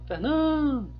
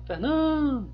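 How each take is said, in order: First: The middle stressed syllable is lengthened and forceful. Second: The same.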